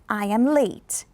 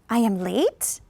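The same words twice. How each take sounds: First: The pitch falls at the end. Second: The pitch rises at the end. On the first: It is a plain statement of fact. "You're going to go down" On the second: The speaker is unsure or did not know. "if I choose to go up there instead of down"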